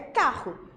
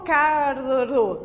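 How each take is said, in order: First: The double R is pronounced as one sound. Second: The two R sounds are pronounced separately. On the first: The speaker calls it right. "É carro. Ele, esses dois R's têm um único som" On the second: The speaker calls it wrong. "eu não falo carro"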